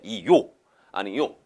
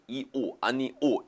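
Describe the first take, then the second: First: Each word ends in a glided 'yo' sound. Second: Each word ends in a plain 'o' vowel. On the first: "이요 아니요 이것도 가능하다는 입니다" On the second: "이오 아니오 이렇게 발음하는데"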